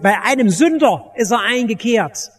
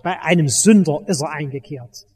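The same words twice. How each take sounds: First: It is said with grateful, joyful warmth. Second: It is said with scornful, grumbling contempt. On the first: The visit is seen as good news. The speaker calls it right. "sondern im Tone der Dankbarkeit und Freude" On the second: The visit is seen as a scandal. The speaker calls it wrong. "den die braven Bürger mit ihrer ganzen Verachtung aussprechen"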